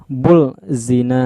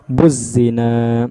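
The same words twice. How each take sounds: First: Slow "bul zina" with a clear l; lam wrongly sounded. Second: Slow "Buz zina" leaping into a held z; silent lam. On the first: Teacher showing the mistake, "bul zina" with audible l. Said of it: "tapi itu salah". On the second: Teacher correcting the mistake, "Buz zina" with no l. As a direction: drop the l and stretch the z in "Buz zina". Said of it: "Ini nggak dibaca lagi alif lamnya". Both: Shown as a demonstration.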